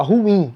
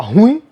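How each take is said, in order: First: Ruim said as a clean "hu-i" with no nasal ending; correct pronunciation. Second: Ruim with a nasal "ĩ" at the end, the wrong way; wrong pronunciation. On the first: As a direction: say ruim in two clear beats, not nasal. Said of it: "não, você fala ruim". (ruim pronunciado certo, sem nasal) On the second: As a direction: say ruim ending in a nasal "huĩ". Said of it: "Você não fala ruim". (ruim com final nasalizado errado) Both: Shown as a demonstration.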